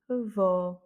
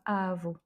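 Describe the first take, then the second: First: The stress is on the last syllable. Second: The stress is on the first syllable. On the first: The speaker calls it right. "c'est vo" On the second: The speaker calls it wrong. "et non pas avo"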